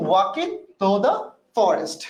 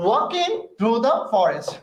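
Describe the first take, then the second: First: Said in the usual way. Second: "walking through the forest" drawn out very slowly, word by word; deliberately slow pronunciation. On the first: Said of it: "তাহলে আমি উচ্চারণটা এভাবে কেন বলছি?". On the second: Shown as a demonstration. Teacher modelling the phrase for students, very slow careful "walking through the forest". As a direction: stretch every word of "walking through the forest" so the class hears each one. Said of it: "ইচ্ছা করে বলছি".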